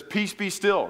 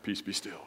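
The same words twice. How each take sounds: First: A firm command, a touch higher and stronger; Jesus commanding the storm. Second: A soft, low, half-joking imitation of the command; mock-commanding the waves. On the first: Retold or imitated. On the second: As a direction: sheepishly try the command yourself. His own failed try on lake.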